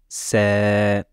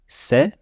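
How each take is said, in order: First: The vowel is long, held two beats. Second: The vowel is short, held one beat. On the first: "Sa voyelle longue" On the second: "Sa voyelle normale"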